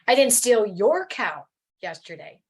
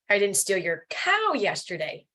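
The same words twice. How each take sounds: First: The stress is on the word your. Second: The stress is on the word cow.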